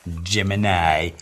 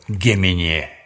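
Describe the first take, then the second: First: The name is said the English way. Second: The name is said the Russian way.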